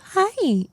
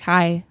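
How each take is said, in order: First: The word is said with raised, high pitch. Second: The word is said with flat, low pitch. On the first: "typically they'll go hi and raise it" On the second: "I've stopped doing that"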